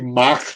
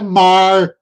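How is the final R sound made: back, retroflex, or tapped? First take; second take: back; retroflex. First: The final R is made far back in the mouth. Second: The final R is curled back at the front. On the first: "que é super posteriorizado" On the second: "que é super anteriorizado"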